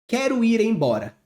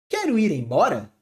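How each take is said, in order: First: It is said as a plain statement. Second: It is said as a question. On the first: It simply states a fact. "Ponto final. É uma afirmação" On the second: It asks about what is said. "Ponto de interrogação"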